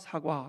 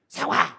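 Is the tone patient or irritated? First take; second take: patient; irritated. First: It is said patiently and gently. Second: It is said sharply, with irritation.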